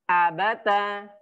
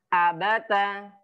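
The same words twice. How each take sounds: The two takes are said the same way.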